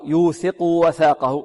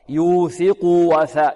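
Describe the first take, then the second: First: The u vowel before the w is clipped short. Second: The u vowel before the w is fully voiced. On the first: The speaker calls it wrong. "لا نقول" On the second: The speaker calls it right. "لابد من إشباع ماذا؟ الضمة"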